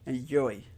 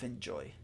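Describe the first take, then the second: First: The j is pronounced like a y sound. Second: The j is pronounced as a j sound. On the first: The speaker calls it wrong. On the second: The speaker calls it right.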